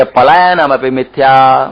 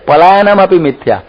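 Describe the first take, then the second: First: Slow Sanskrit intoning. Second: Higher, quicker, પલાયનમ thrown out mockingly; mocking repeat. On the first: Retold or imitated. Fleeing monk justifying himself to villagers, slow intoning. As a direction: draw out પલાયનમ slowly like a verse. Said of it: "એ કે". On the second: Preacher mocking false scholars, teasing repeat. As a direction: toss the phrase off in mockery. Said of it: "મિથ્યા જ્ઞાની હોય".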